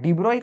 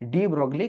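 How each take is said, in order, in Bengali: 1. নামটা 'oy' ধ্বনি দিয়ে শেষ হয়। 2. নামটা 'glee' ধ্বনি দিয়ে শেষ হয়। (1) "ପ୍ରୋନାଉନ୍ସିଏସନଟା ଆକ୍ଚୁଆଲି ଡିବ୍ରୋଇ" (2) "ଡି ବ୍ରୋଗ୍ଲି ଆମେ ଲେଖେ"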